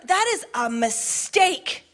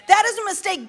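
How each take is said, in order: First: Slow, measured warning; slow statement. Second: High, forceful restatement; emphatic repeat. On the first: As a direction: let each word land. Stated slowly, then repeated. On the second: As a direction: hammer it home the second time. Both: Acted.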